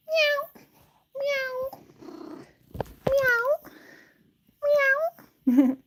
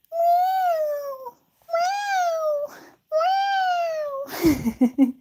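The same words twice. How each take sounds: First: Short, high little meows; imitated cute meow. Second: Long, wailing mock meows; imitated baby-cry meow. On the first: Showing Stratus's cute boy meow, small neat mews. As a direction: mew like a sweet little cat. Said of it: "perfect little cute, cute boy meow". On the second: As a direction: wail like a demanding cat. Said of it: "turns on his baby cry".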